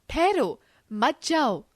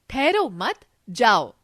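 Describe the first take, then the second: First: ठहरो on its own, brief pause, मत जाओ as one phrase; pause after ठहरो. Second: ठहरो मत run together, then जाओ alone; loud, slow ठहरो मत, pause before जाओ; pause after मत. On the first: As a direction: stop after ठहरो, then मत जाओ together. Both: Shown as a demonstration. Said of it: "अलग-अलग स्थान पर रुकने का संकेत".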